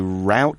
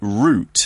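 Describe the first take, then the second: First: Route is said with an American pronunciation. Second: Route is said with a British pronunciation. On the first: "in the States you say route sometimes" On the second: "in the U K now we say route"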